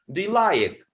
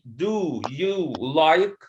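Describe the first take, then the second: First: Do and you are reduced to schwa. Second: Do and you have full, clear vowels. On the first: The speaker calls it right. "So there's a schwa here and there's a schwa here" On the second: The speaker calls it wrong. "you you say do you like? No"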